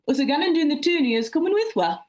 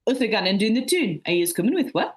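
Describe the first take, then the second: First: Broad Mackem accent, higher and punchy; Sunderland dialect. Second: Broad Mackem accent, a bit calmer; Sunderland dialect. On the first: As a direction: read it out in a thick Sunderland accent. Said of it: "English spoken in my hometown". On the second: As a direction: repeat it in a thick Sunderland accent. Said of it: "I'll repeat it". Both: Shown as a demonstration.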